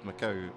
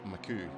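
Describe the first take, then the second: First: The word ends with an 'ow' sound. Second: The word ends with an 'oo' sound. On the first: The speaker calls it right. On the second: The speaker calls it wrong.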